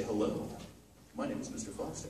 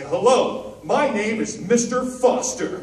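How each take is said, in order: First: Softer and lower, subdued; a quiet, low hello; low quiet version. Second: Louder, higher, slow and eager; a loud cheerful hello; bright eager greeting. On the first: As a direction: say it as if holding back. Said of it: "different interpretation". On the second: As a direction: introduce yourself with big energy. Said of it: "lots of ways to say things". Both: Shown as a demonstration.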